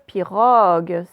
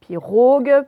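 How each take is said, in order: First: "pirogue" with a wide-open O, loud. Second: "Pirogue" with a closed O, as in French "eau", loud. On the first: Teacher showing pupils the correct vowel, open O in "pirogue". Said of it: "dans pirogue, on le, on l'ouvre, le O". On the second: Teacher showing pupils the other vowel, closed O in "Pirogue". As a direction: say "Pirogue" loudly with a tight, rounded O. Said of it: "on l'ouvre, le O". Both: Shown as a demonstration.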